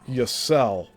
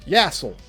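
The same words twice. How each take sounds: First: The surname is said the owner's own way. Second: The surname is said the commonly heard way. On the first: The speaker calls it right. "It's Yassel" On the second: The speaker calls it wrong. "That's the most mispronounced way people say my last name"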